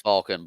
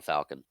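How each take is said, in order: First: "Falcon" with an open aw vowel; pronounced FAWL-kin. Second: "Falcon" with the short a of cat; pronounced FAL-kin. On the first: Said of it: "It's pronounced Falcon". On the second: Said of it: "spelled Falcon". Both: Shown as a demonstration.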